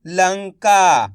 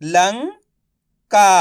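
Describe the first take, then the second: First: "लंका" blended into one word; syllables joined. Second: "लंका" split slowly, pause before का; syllable by syllable. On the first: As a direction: say "लंका" whole, without the pause. ("लंका" मिलाकर एक शब्द में) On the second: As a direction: sound out "लंका" as लं, then का. ("लंका" को तोड़कर, धीरे-धीरे) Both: Shown as a demonstration. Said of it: "तो मिलके बन जाएगा".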